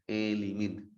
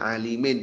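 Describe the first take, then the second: First: The first vowel is tilted toward 'e'. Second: The first vowel is a plain open 'a'.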